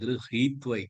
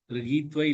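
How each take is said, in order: First: The h sound comes strongly from the throat. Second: The h sound is weak, not from the throat. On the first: The speaker calls it right. "ஹீ தொண்டையிலேருந்து வரணும்" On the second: The speaker calls it wrong. "கிருஹீத்வை இல்ல"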